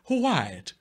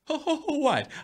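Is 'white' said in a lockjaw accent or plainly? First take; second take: plain; lockjaw. First: The word is said in a plain, ordinary voice. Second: The word is said with a clenched lockjaw accent.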